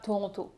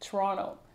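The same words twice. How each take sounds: First: The second t sound is clearly pronounced. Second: The second t sound is dropped. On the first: It marks a tourist or newcomer. The speaker calls it wrong. "on ne dit pas Toronto" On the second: It marks a local. The speaker calls it right. "on dit Toronto ... eux ne prononcent pas le T"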